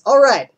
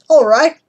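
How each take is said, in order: First: It is said in a Texan accent. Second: It is said in an Australian accent. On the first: "or Texas" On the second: "What if you're in Australia?"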